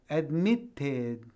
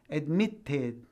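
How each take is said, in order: The two takes are said the same way.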